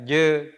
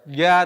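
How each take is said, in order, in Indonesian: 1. Diawali dengan bunyi 'j'. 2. Diawali dengan bunyi 'y'. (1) "tapi terbaca je" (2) "bukan terbaca ya"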